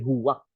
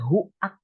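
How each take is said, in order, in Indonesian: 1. Bunyi w disisipkan di antara vokal. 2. Vokalnya menyambung tanpa bunyi w di antaranya. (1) "tapi huwak" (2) "bukan huak"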